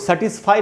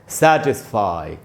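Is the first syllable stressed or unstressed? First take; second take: unstressed; stressed. First: The first syllable is not stressed. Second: The first syllable is stressed. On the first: The speaker calls it wrong. "इसको satisfy नहीं बोलना है" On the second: The speaker calls it right. "सै में जो ए है वहीं पर स्ट्रेस है"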